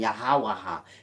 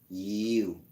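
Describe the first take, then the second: First: The word is said with four syllables. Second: The word is said with one syllable. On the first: The speaker calls it wrong. "Don't add no A to make it yahawaha" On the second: The speaker calls it right. "Y H W H is pronounced you"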